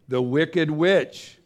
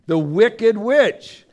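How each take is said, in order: First: Said in the usual way. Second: Higher, louder and slow, every word dragged out; spooky storyteller naming the Wicked Witch; ominous villain announcement. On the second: Shown as a demonstration. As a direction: boom out the name like the witch is coming. Repeats villain's name dramatically.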